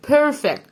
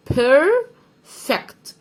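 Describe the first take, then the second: First: Said in the usual way. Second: "بيرفكت" higher and louder, very slow, in two parts; split syllables. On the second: Shown as a demonstration. Teacher spelling out perfect for pupils, slow split "بيرفكت". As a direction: stretch "بير", pause, then "فكت".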